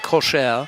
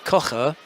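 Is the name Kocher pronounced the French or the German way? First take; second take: French; German. First: The name is given a softer French pronunciation. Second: The name is given a German pronunciation. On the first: The person is a French-speaking Swiss. "then it's French" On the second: The person is a German-speaking Swiss. "then that's German"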